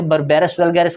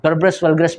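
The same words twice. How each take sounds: First: "berberis vulgaris" with full vowels, ber-BE-ris vul-GA-ris; first pronunciation variant. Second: "berberis vulgaris" with reduced middle vowels, roughly BER-bris VUL-gris; second pronunciation variant. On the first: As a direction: say every syllable of "berberis vulgaris" fully. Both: Shown as a demonstration. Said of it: "दोनों ही pronunciation ठीक हैं".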